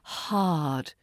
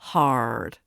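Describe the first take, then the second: First: The r is silent. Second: The r is pronounced. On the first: The speaker calls it right. "The R is silent" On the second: The speaker calls it wrong. "not car, hard"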